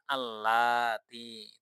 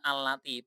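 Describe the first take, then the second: First: A vowel in the word is drawn out long. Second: A vowel in the word is kept short. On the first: The speaker calls it wrong. "tidak perlu allati yang panjang" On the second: The speaker calls it right. "tapi pakainya allati"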